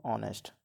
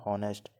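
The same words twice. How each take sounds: First: ऑनेस्ट starting straight on the vowel, no h; silent h. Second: हॉनेस्ट with a sounded h at the start; wrong pronunciation. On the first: Teacher to students, showing the right way: ऑनेस्ट with silent h. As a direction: say ऑनेस्ट with the h dropped. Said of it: "तो हम इसको कैसे पढ़ेंगे?". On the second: Teacher to students, showing the wrong way: हॉनेस्ट with h sounded. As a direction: say हॉनेस्ट with the h breathed out. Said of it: "यहाँ पे हम इसको ऐसे नहीं पढ़ेंगे". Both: Shown as a demonstration.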